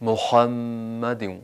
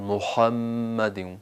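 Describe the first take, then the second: Both takes have the same delivery.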